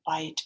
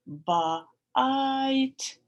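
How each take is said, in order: First: Said in the usual way. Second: Loud bite. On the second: Shown as a demonstration.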